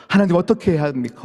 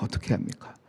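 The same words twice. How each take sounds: First: Said in the usual way. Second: Whispered, helpless-sounding echo; hushed plea. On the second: Acted. Believer asking God what to do, in a hushed plea. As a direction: drop the repeated question to a whisper.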